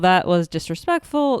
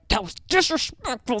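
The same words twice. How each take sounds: First: It is said softly and calmly. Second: It is said harshly and angrily. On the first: A mild, kind remark about the lateness. "they never say it like gently" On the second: A furious accusation about the lateness. "They're like fuming"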